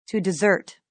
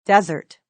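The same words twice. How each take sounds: First: "desert" stressed on the second syllable, dih-ZERT; verb stress. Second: "desert" stressed on the first syllable, DEZ-ert; noun stress. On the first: Teacher showing the verb, "desert" as dih-ZERT. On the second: Teacher showing the noun, "desert" as DEZ-ert. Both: Shown as a demonstration.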